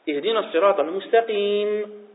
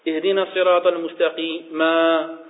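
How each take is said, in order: First: The phrase ends cleanly without an extra syllable. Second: An extra syllable is added after the last word. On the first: The speaker calls it right. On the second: The speaker calls it wrong.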